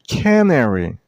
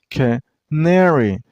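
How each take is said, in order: First: The stress is not on the second syllable. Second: The stress is on the second syllable. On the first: The speaker calls it wrong. "Not canary" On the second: The speaker calls it right. "you should stress on the middle syllable"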